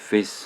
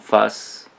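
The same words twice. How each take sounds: First: It is pronounced the English way. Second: It is pronounced the French way. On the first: "mais prononcé à la, à la- à l'anglaise" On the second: "si on prononce à la française, on dirait face"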